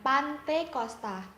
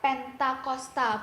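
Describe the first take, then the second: First: The first syllable is 'pan', then 'te'. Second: The first syllable is 'pen', then 'ta'. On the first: The speaker calls it wrong. "bukan Pantekosta" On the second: The speaker calls it right. "yang benar itu adalah Pentakosta"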